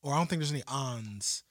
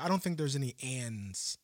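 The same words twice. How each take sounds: First: Ons with an open "ah"; "on" vowel. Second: Ands with the short "a" of "cat"; "and" vowel. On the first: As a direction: say ons as "ahnz". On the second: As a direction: say ands with a clear front "a". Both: Shown as a demonstration. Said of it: "I can see where it comes".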